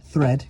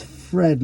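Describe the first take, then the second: First: Said in the usual way. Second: THREAD pronounced with an F, like "Fred". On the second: Real, not acted. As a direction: say "thread" with F in place of TH. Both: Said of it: "that's not thread".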